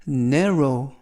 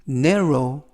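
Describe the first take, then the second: No difference in how they are said.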